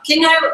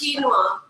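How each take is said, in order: First: The first syllable does not sound like keen. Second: The first syllable sounds like keen. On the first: The speaker calls it wrong. "which is odd, isn't it? It's odd. It's not right" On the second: The speaker calls it right. "Keen, like you're keen"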